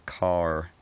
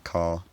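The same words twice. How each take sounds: First: An r sound is heard after the vowel. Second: No r sound follows the vowel. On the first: This is a rhotic pronunciation. "I don't say" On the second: This is a non-rhotic pronunciation. "I say"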